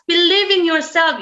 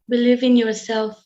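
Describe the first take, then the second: First: It is said with lively, varied, raised tone. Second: It is said in a flat, unvaried tone. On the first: The message feels inspiring. The speaker calls it right. "that way we have to say, changing our tone" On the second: The message feels uninspiring. The speaker calls it wrong. "this is not inspiring"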